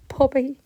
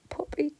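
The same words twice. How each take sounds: First: Puppy called out loud in relief; surprised call. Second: Puppy breathed out in a whisper, high; whispered call. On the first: Owner finding her dog in the summer house, calling out. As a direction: call the word Puppy much higher and louder. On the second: Owner finding her dog in the summer house, whispering. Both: Retold or imitated.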